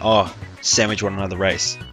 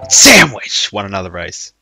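First: It is said quietly and casually. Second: It is said loudly, almost shouted.

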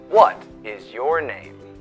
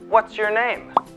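First: 'What is' is said as two full words. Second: 'What is' is contracted into one syllable. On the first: The speaker calls it wrong. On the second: The speaker calls it right.

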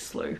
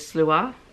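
First: The name ends on a plain 'oo' sound. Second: The name ends with an added 'ah' sound. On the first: This is a form heard elsewhere. "a different interpretation, one that I've heard, is slew" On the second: This is the form given in the book's guide. "which in here is slua, probably is accurate"

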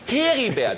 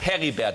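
First: The first vowel is long, as in her. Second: The first vowel is short, as in Herr. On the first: This is how it should properly be said. The speaker calls it right. "eigentlich muss es heißen Heribert. Dann sagt, gib mal her" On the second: This is the usual, established way of saying it. The speaker calls it wrong. "man sagt Heribert, das hat sich auch eingebürgert"

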